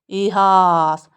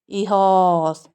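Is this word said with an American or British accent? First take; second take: American; British. First: The second vowel is an open 'ah' sound. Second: The second vowel is a rounded 'o' sound. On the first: "American क्या बोलते हैं?" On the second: "ई पे stress है।"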